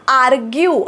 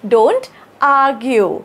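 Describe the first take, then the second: First: "आर्ग्यू" with the R fully sounded; R pronounced. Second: Slow model, "argue" as "aa-gyu" with no R; silent R. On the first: Teacher showing learners what she did not say, "आर्ग्यू" with R sounded. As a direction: say "आर्ग्यू" with an audible R before the G. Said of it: "असं नाही म्हटलंय मी". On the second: Teacher modelling fluent sound for learners, "argue" with silent R. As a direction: drop the R in "argue", lengthen the first vowel. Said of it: "रचा उच्चार थोडासा मी silent केलाय". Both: Shown as a demonstration.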